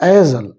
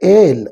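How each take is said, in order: First: The word is said with an s sound. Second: The word is said with no s sound. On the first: "ಆರ್ sometimes we can call as ಎ ಏಸಲ್" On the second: "which means that is ಎಸ್ silent"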